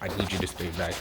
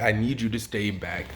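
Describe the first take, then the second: First: It is said softly, not as a command. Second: It is said as a firm command.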